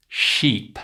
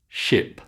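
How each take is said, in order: First: "Sheep" with a long, tense ee vowel. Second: "ship" with a short, lax i vowel. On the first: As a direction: draw out the ee in "Sheep". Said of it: "can you say these word pairs". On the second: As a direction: keep the i in "ship" quick and relaxed. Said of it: "the long E sound and the short I". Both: Shown as a demonstration.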